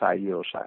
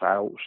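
First: The i sound between the vowels is kept. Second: The i sound between the vowels is dropped. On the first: This is the original Castilian form. "saio, en castellà" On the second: This is the local dialect form. "pronunciat dialectalment, sa i intervocàlica desapareix"

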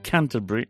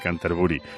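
First: Canterbury is said with English sounds. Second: Canterbury is said with Spanish sounds. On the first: "me vas a decir, ¿qué te pasa en la boca?" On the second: "Pero claro, no es así"

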